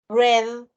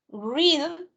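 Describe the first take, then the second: First: The word sounds like the color 'red'. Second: The word rhymes with 'need'. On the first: The reading happened in the past. "pasado. Acá se pronuncia como que es el color" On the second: The reading happens now.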